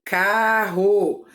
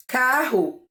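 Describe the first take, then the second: First: Carro split into car-ro; carro split into syllables; syllables spelled out. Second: Said in the usual way. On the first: Shown as a demonstration. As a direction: open the mouth twice on carro. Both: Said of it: "Quantas vezes eu abro a minha boca".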